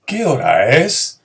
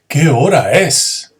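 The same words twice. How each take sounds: First: Rising question tune; teacher demoing a question; plain question. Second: Slow, loud amazed exclamation; teacher demoing astonishment; astonished. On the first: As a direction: simply ask the time. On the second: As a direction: sound stunned at the hour. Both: Shown as a demonstration.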